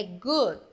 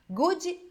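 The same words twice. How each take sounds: First: "good" cut off on the D, no vowel after; "good" ends dead on the D; correct pronunciation. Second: "Good" with an extra vowel, said goodi; slow "Good" ending in an added i sound; wrong pronunciation. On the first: Teacher showing students the right way, "good" stopped on the D. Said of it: "Morreu o som no D". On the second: Teacher showing students the wrong way, "Good" said goodi. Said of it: "Então, não existe good". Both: Shown as a demonstration.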